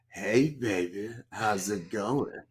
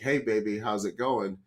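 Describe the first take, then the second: First: The line is said in a much creepier voice. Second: The line is said in a mildly creepy voice. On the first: The speaker calls it right. "I think it was pretty close to creepy" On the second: The speaker calls it wrong. "maybe I didn't do the voice right. Maybe I should have done that more creepily"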